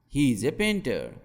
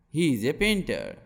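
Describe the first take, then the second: No difference in how they are said.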